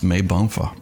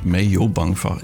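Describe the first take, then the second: First: It is said as three short syllables. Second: It is said as four syllables.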